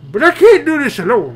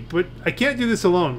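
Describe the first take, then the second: First: It is read in a put-on old man's voice. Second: It is read in a plain, natural voice. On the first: The speaker calls it right. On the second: The speaker calls it wrong.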